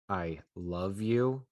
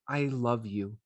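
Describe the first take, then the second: First: It is said coldly, with a mean, cutting edge. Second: It is said warmly and sincerely, with affection. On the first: The speaker wants to hurt the other person. "I'm really trying to um, be mean to David" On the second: The speaker wants to connect and touch the other's heart. "And I mean it. I really love you"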